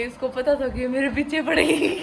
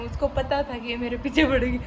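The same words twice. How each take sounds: First: Higher voice breaking into real laughter; laughing. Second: Said in the usual way. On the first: Real, not acted. Wife retelling husband's trick to viewers, laughing. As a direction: lose the last word in a high giggle. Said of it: "मुझे हंसी आ रही है". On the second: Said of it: "मुझे हंसी आ रही है बताते time".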